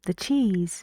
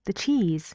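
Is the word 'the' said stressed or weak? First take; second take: weak; weak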